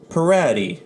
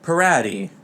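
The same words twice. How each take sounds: First: Pirati said louder, pee-RAH-tee with a tapped r; Italian pronunciation. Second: Pirati said the Italian way, pee-RAH-tee; Italian pronunciation. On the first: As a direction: Pirati with a rolled Italian r and stress on RA, falling. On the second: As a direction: pirati with a tapped r and stress on RA. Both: Shown as a demonstration. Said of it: "pirates pronounced in Italian".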